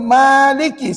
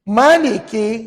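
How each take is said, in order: First: The first vowel 'ma' is long. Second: The first vowel 'ma' is short. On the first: It follows the tradition the listeners use. "Imam Asim riwayat Imam Habs dibaca ah ni" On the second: It follows a different reading tradition. "Kalau qiraat Imam Hamzah dan riwayat Imam Khalaf dibaca begini"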